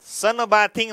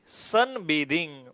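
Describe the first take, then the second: First: The vowel is a short 'a' like 'bath'. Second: The vowel is a long 'ay' like 'bathe'. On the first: The speaker calls it wrong. "Sun बाथिंग नाही" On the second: The speaker calls it right.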